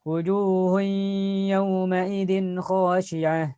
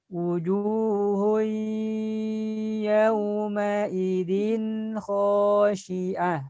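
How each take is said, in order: First: It is recited at a fairly fast tempo. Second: It is recited at a very slow tempo. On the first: "tempo yang agak cepat" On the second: "yang paling lambat"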